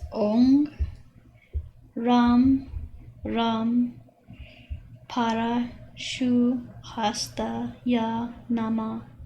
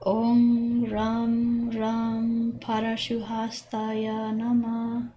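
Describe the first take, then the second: First: The mantra is said slowly, syllable by syllable. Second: The mantra is said quickly, syllables run together.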